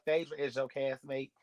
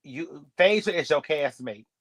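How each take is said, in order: First: Said in the usual way. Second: Slow, with Phaedra leaned on and pushed louder; slow emphatic point. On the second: Shown as a demonstration. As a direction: spell it out slowly, weight on Phaedra.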